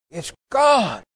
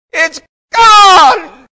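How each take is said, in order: First: Higher-pitched cry of astonished relief; amazed cry. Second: Full-force, high-pitched shout of deliverance; top-of-voice yell. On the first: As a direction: imitate his dawning amazement, pitch leaping up. Retold moment of sudden deliverance. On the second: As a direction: yell it through the whole church, holding nothing back. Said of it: "at the top of his voice, he yelled". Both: Retold or imitated.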